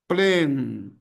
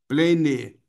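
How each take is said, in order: First: The word is said as one syllable. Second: The word is said as two syllables. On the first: The speaker calls it right. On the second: The speaker calls it wrong. "duas sílabas. Não faça isso"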